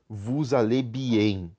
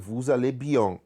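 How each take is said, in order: First: The vowel in bien sounds like em. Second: The vowel in bien sounds like an. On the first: The speaker calls it wrong. "vocês não podem falar vous allez bien, tá? Está errado" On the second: The speaker calls it right. "esse en a gente utiliza como an e não como em"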